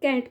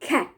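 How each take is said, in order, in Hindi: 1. पहली k ध्वनि अल्पप्राण है, बिना साँस के। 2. पहली k ध्वनि में हवा का तेज़ झोंका होता है। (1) "हम लोग कैट बोलते हैं" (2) "ब्रिटिश में उसकी प्रोनाउंसिएशन कैसे होती है? ... इट्स कमिंग ख"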